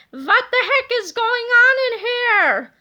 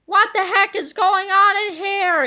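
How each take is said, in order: First: High, loud, slow put-on angry voice; gruff angry yell. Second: Angry yell. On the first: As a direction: bellow like a cranky old principal. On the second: Acted. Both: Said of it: "yelled the angry-looking hero".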